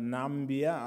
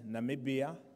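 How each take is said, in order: First: The name is said with three syllables. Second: The name is said with four syllables. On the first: The speaker calls it wrong. "not Nambia" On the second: The speaker calls it right. "It is called Namibia"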